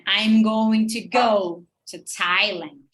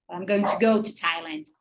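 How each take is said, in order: First: Slow and loud, GO and THAILAND drawn out; exaggerated sentence stress. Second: Said in the usual way. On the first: Shown as a demonstration. Teacher modeling answer rhythm, exaggerated stress on go and Thailand. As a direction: stretch and punch "go" and "Thailand". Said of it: "Eu tô fazendo bem exagerado". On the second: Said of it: "but it works like this".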